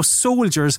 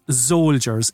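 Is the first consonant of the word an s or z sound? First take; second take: s; z. First: The word begins with a plain s sound. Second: The word begins with a z sound.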